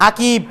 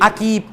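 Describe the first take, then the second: Both takes have the same delivery.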